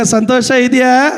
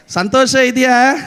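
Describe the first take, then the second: First: ಇದೆಯಾ lifted as a call to answer; preacher calling out for a reply; prompting the congregation. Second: Said in the usual way. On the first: Shown as a demonstration. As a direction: call it out to the back rows. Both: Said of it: "ಹಿಂದೆ ಇರೋರೆಲ್ಲರೂ ಹೇಳ್ಬೇಕೀಗ".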